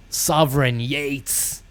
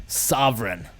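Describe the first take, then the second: First: Sovereign stretched slow and grand; drawn-out name. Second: Said in the usual way. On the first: Shown as a demonstration. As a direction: draw out Sovereign Yates like a title. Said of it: "Sovereign Yates' going away gaff".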